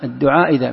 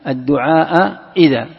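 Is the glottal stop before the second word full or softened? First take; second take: softened; full. First: The second glottal stop is softened, not fully closed. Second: Both glottal stops are fully pronounced. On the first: "أو تسهيلها" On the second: "كيف أحقق الهمزتين؟"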